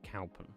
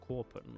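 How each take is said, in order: First: The first syllable sounds like 'cow'. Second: The first syllable sounds like 'core'. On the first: The speaker calls it wrong. "I would say Cowpen. But I think that sounds silly" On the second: The speaker calls it right. "It's Corpen. ... like claw pen, but core"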